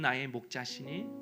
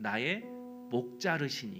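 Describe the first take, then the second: First: The word is said without an extra syllable. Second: The word is said with an extra 'reu' syllable. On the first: The Lord is my shepherd. The speaker calls it right. "이게 원래 이렇게 읽어줘야 되는데" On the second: The Lord cuts my neck. The speaker calls it wrong. "발음이 서툴다 보니까 이렇게 읽어주었습니다"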